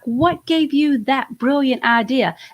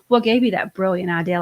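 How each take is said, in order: First: It is said with a sincere, admiring tone. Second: It is said with a sarcastic, mocking tone. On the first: The idea really is brilliant. "I'm saying brilliant because it's really brilliant" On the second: The idea is actually foolish. "like sarcastic"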